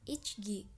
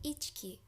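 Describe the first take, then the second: First: The middle consonant is a voiced g sound. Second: The middle consonant is a voiceless k sound. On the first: The speaker calls it wrong. "dibacanya nggak akan ichgi" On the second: The speaker calls it right. "tapi ichki"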